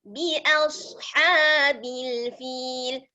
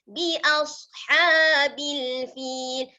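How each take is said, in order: No difference in how they are said.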